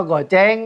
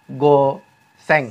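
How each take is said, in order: First: "goceng" run together with a ch sound; Jakarta slang reading. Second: "go seng" in two parts, with s; Japanese reading. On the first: Teacher quoting what Jakartans say, goceng with ch. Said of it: "orang Jakarta nyebut". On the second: Teacher showing how Japanese say it, go seng with s. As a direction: split "go seng", s not ch. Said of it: "kalau orang Jepang nyebutnya". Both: Shown as a demonstration.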